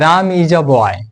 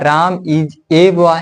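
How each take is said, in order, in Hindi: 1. Article 'a' को छोटे 'uh' की तरह बोला जाता है। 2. आर्टिकल 'a' को पूरे 'ay' की तरह बोला जाता है। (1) "इसको हम अ पढ़ेंगे" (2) "या ए पढ़ेंगे"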